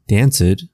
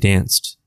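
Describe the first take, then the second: First: The ending is said as an extra 'id' syllable. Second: The ending is said as a plain 't' sound. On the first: The speaker calls it wrong. "We don't say danced" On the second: The speaker calls it right. "we say danced"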